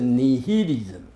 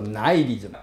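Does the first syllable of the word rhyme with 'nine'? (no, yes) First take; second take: no; yes. First: The first vowel does not sound like 'nine'. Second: The first vowel sounds like 'nine'. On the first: The speaker calls it wrong. "不是nihilism" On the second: The speaker calls it right. "念作nihilism， N-I 念作I， nine"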